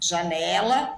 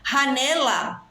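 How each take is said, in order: First: It starts with a soft zh sound. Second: It starts with a harsh throaty h sound.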